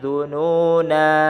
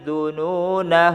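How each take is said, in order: First: The final vowel is drawn out long. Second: The final vowel is short, running on. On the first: The reading stops at this word. "kalau waqaf maka dibacanya seperti ini" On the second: The reading continues without stopping. "ketika wasal dibaca ... nanya itu pendek"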